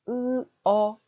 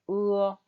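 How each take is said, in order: First: Two separate vowel sounds with a break between. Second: One smooth vowel gliding without any break. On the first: The speaker calls it wrong. "이렇게 하시면 안 돼요" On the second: The speaker calls it right. "바로 연결해서 한 소리처럼 읽으셔야 되는 거예요"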